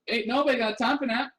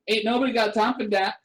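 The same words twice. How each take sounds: First: The word 'that' begins with no consonant, 'at'. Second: The word 'that' begins with a light d. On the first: "It might not even need the d. It might just be the at" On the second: "just don't emphasize the d"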